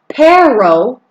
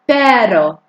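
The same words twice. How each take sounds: First: The R is a hard English-style R. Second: The R is a soft tap like D. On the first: The speaker calls it wrong. "It's not pero" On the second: The speaker calls it right. "Notice the soft D sound I'm using on my tongue"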